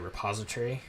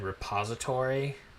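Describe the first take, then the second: First: The word is said quickly, with syllables shortened. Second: The word is said in full, all syllables clear. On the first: This is how the speaker says it now when reading. "when I'm reading quickly or, or just reading, like I've noticed I just say repository" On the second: This is how the speaker used to say it. "I would have said repository"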